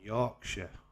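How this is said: It is said in a British accent. The speaker calls it right. "I'm from Yorkshire"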